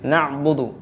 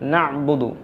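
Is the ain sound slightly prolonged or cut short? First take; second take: cut short; cut short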